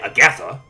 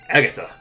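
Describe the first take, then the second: First: The name is slurred like a sputtering cartoon duck. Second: The name is pronounced in a plain, normal way. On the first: The speaker calls it wrong. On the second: The speaker calls it right.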